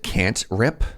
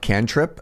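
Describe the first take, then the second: First: The word is split as can't plus rip. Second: The word is split as can plus trip. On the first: The speaker calls it wrong. "pronounced it can't rip" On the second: The speaker calls it right. "not cantrip"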